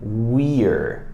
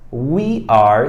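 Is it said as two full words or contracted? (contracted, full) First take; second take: contracted; full. First: The words merge into one short syllable. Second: Two separate words are said in full.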